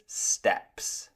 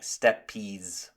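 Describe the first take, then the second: First: "steps" as one syllable, like walking steps; correct steppes. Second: "steppies" in two syllables, STEP-eez; mispronounced steppes. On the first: Teacher correcting learners' pronunciation, slow one-syllable "steps". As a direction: say "steps" slowly, no vowel after the p. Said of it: "it's just the same as when you are walking". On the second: Teacher showing learners a likely mistake, "steppies" with an extra syllable. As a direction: add an "eez" ending to make "steppies". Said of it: "you may pronounce it wrong". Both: Shown as a demonstration.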